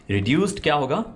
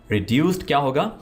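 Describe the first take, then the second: Both takes have the same delivery.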